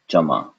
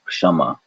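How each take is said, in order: First: It starts with a ch sound instead. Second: It starts with a lightly swallowed k before sh. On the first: "replace that whole thing with a cha sound" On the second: "the technically correct way ... you swallow the K"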